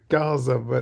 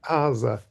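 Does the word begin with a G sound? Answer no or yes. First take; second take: yes; no. First: The word begins with a hard G sound. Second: The word begins without any G sound. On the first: "pronunciation that then the Greeks would uh, transcribe as a G" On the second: "which is just Aza"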